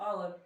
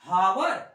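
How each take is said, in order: First: The word begins with a vowel sound. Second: The word begins with an h sound. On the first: The speaker calls it right. "एच silent करके" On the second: The speaker calls it wrong. "हावर पढ़ेंगे, wrong होगा"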